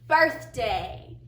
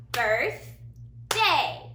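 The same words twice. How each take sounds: First: Said in the usual way. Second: "Birthday" split into two beats, a clear pause between Birth and day; syllable by syllable. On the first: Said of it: "gonna say a word". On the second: Shown as a demonstration. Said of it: "clap the syllables".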